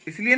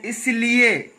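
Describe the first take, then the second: First: इसलिए with a short li; correct pronunciation. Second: इसलिए drawn out, with long lee; wrong pronunciation. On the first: Teacher correcting the slip, correct pronunciation. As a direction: say इसलिए briskly, middle vowel short. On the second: Teacher quoting how people say it, wrong pronunciation. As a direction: stretch the middle of इसलिए slowly. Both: Shown as a demonstration. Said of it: "इसलिए नहीं".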